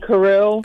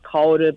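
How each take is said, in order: First: The name is said with an American pronunciation. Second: The name is said with a Japanese pronunciation. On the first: This is how people in the States say it. The speaker calls it wrong. "everyone in the States call me Karu" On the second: This is how the name is said in Japan. The speaker calls it right. "the proper pronunciation is Kaoru"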